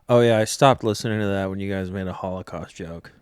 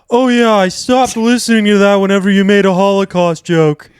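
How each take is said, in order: First: It is said in the speaker's normal voice. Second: It is said in an impression of him.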